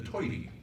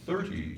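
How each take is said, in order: First: It starts with 't' and an 'oy' vowel. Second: It starts with 'th' and an 'er' vowel. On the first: "into toity ... Brooklyn accent" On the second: "They changed thirty"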